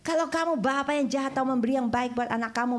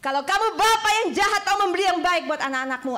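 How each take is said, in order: First: Said in the usual way. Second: Higher and louder, stressing bapa; preaching loud. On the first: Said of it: "repeated louder". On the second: Acted. Preacher repeating the verse to the church, booming. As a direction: proclaim it to the back row.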